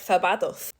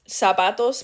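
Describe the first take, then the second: First: The first consonant is a 'th' sound. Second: The first consonant is an 's' sound.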